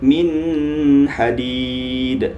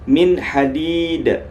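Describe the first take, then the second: First: The n is held with a nasal hum. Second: The n is clear with no nasal hum. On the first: The speaker calls it wrong. "Jangan antum baca min hadid. Nah, itu salah ya" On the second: The speaker calls it right. "Cara bacanya min hadid"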